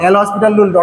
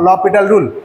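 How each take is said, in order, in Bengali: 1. নামটি 's' ধ্বনি দিয়ে উচ্চারণ করা হয়। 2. নামটি 's' ধ্বনি ছাড়া উচ্চারণ করা হয়। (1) "অনেকে উচ্চারণ করে" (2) "কিন্তু এটা হচ্ছে এল ল পিটাল রুল"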